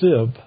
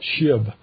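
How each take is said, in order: First: The syllable begins with a plain s sound. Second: The syllable begins with a sh sound. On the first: The speaker belongs to the enemy tribe. The speaker calls it wrong. "they could not pronounce the word correctly, so they would say Sib" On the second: The speaker belongs to the home tribe. The speaker calls it right. "And not Shib"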